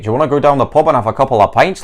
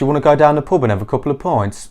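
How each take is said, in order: First: It is spoken in a Scottish accent. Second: It is spoken in a Birmingham accent. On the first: "O nono sotaque é de Scotland"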